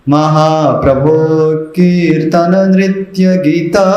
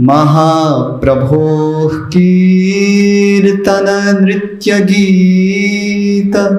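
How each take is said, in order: First: The last vowel of the last word is long. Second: The first vowel of the last word is long. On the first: The speaker calls it wrong. "गी छोटा करेंगे और त को लंबा करेंगे" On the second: The speaker calls it right. "गी लंबा खींचना है"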